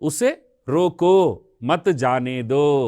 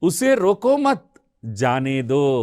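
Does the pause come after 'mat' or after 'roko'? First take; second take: after roko; after mat. First: The pause comes right after roko. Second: The pause comes right after mat. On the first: He should be stopped and not allowed to leave. "पहले रुकना" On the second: He should not be stopped; let him leave. "यह अर्थ अलग है"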